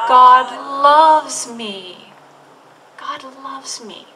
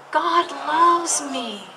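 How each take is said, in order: First: Slow affirmation. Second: Slow unison affirmation. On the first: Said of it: "Can you say it again". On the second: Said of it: "Can you say that with me". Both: Shown as a demonstration.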